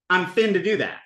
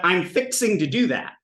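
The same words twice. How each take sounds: First: "fin to" squeezed into "finna"; contracted fixing to. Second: "fixing to" with every syllable sounded; full fixing to. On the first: Teacher showing what it becomes, contracted. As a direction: run "fin to" together as one word. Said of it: "and it becomes". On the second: Teacher giving the full form first, uncontracted. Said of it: "is fixing to". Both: Shown as a demonstration.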